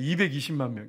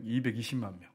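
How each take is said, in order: First: 이백이십만 pressed out firmly; stress on 이백이십만. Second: 이백이십만 repeated lower and softer; quiet echo. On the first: Preacher stressing 이백이십만 to the congregation. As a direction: lean into 이백이십만 to stress the crowd. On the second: Preacher echoing 이백이십만 softly, lower, to let it land. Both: Shown as a demonstration.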